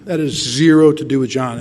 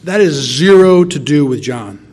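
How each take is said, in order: First: Said in the usual way. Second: "zero" stretched and punched, slow; emphatic zero. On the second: Shown as a demonstration. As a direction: stress on zero, slow and loud.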